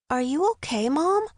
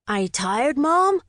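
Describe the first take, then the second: First: Put-on higher boyish voice, concerned question; genuine concern. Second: Put-on high, rising boyish taunt; teasing boy. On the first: Fitz to his winded mother, genuinely concerned. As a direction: check on her sincerely, pitch lifting. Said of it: "asked with genuine concern". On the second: Son teasing his mother on the bike ride, taunting. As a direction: needle her, lifting sharply on the last word. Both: A narrator's reading.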